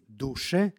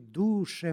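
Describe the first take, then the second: First: The word carries a short accent. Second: The word carries a long falling accent. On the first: It addresses the spirit. "sa kratkim akcentom" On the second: It addresses the soul. "sa dugosilaznim akcentom"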